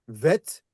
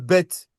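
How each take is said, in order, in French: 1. Il commence par le son v. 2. Il commence par le son b. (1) "qui devient un ve" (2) "le B"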